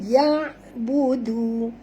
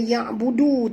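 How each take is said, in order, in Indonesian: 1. Bunyi 'du' terakhir lembut. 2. Bunyi 'du' terakhir keras. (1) "Du di sini lembut" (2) "jangan baca ya budu, tak betul ya"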